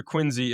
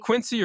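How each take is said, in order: First: Quincy as QUIN-zee, with a Z; Quincy with "zee" as the second syllable; Z pronunciation. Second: Quincy as QUIN-see, with an S; Quincy with "see" as the second syllable; S pronunciation. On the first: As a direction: say Quincy with a buzzed Z. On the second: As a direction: say Quincy with a hissed S. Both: Shown as a demonstration. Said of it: "I would have known to say Quincy".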